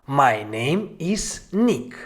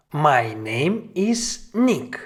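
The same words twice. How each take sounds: The two takes are said the same way.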